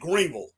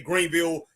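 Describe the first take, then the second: First: It is said the local Greenville way. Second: It is said the way out-of-towners say it.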